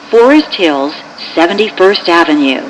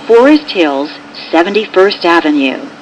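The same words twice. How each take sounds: The two takes are said the same way.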